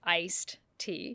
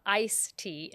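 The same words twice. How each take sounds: First: Slow, careful "iced tea", ending kept; ICED with final D. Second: "ice tea", slowly, the D left off; ICE without final D. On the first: Host correcting the name of iced tea, "iced" with its final D. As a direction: say "iced" slowly, sounding the ending before "tea". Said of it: "not, it's not ice tea". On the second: Host correcting the name of iced tea, showing "ice" without its D. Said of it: "it's iced tea". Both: Shown as a demonstration.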